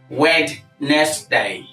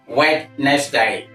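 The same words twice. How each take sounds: First: The word is said with three syllables. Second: The same.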